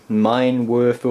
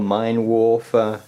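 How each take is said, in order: First: "Werfer" with an English W and an er vowel; unsure, drawn-out attempt at "Mine Werfer", er in "Werfer"; tentative pronunciation. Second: "Warfer" with an English W and an or vowel; unsure, drawn-out attempt at "Mine Warfer", or in "Warfer"; alternative pronunciation. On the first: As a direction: say "Mine Werfer" slowly, first syllable of "Werfer" like "were". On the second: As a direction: say "Mine Warfer" slowly, first syllable of "Warfer" like "war". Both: Shown as a demonstration. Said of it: "not sure how you can pronounce that".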